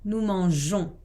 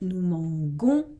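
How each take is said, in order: First: The middle consonant is a soft 'j' sound. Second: The middle consonant is a hard 'g' sound. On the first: The speaker calls it right. "il faut ajouter un E pour garder le son J" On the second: The speaker calls it wrong. "si on enlève le E, ça donne"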